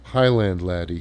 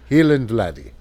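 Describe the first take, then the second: First: Highland is said with a non-Scottish pronunciation. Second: Highland is said with a Scottish pronunciation. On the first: "They say Highland Laddie here" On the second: "the Scottish pronunciation is"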